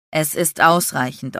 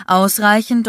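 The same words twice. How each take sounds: First: Said in the usual way. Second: Ausreichend said louder and higher, stressed; emphatic repeat. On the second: Acted. Landon to Aubrey, insisting firmly, stress on Ausreichend. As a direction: hammer home the word Ausreichend.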